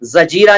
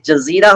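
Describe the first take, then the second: First: The middle consonant is a plain j sound. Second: The middle consonant is a z sound. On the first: The speaker calls it wrong. "जजीरा नहीं होता" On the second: The speaker calls it right. "दूसरे जा के नीचे नुक्ता लगाइएगा"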